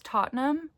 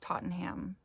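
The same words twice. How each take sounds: First: The name is said the British way. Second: The name is said a non-British way. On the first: "that's how you say it in England" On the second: "I heard it pronounced"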